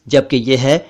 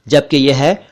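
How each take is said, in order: No difference in how they are said.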